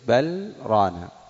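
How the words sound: A brief silent break separates the two words. "فيسكت بل ران"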